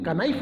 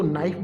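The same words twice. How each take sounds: First: "कनाइफ" with the K sounded; wrong reading. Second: "नाइफ" starting straight on n; correct reading. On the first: Teacher showing students the wrong "कनाइफ", K pronounced. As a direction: say knife as "कनाइफ", ka before the n. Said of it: "कनाइफ नहीं बोलेंगे". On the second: Teacher correcting students, "नाइफ" with silent K. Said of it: "इसको नाइफ बोलेंगे". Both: Shown as a demonstration.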